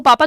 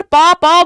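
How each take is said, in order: First: पापा run together with no gap; joined as one word. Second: पा, पा split by a gap, louder and higher; two separate syllables. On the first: Teacher showing what babies cannot join, पापा said connected. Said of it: "जोड़ के नहीं बोलेगा". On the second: Teacher showing how babies babble, पा said separately twice. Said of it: "दो बार पा बोल रहा है". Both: Shown as a demonstration.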